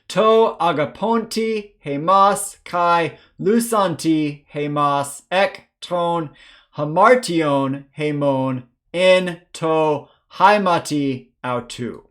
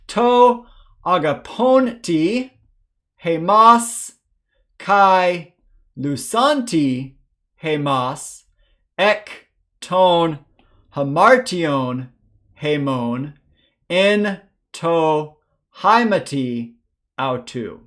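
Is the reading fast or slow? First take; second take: fast; slow. First: The verse is read at a faster pace. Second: The verse is read at a slow pace. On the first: "A little bit faster this time" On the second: "once slowly"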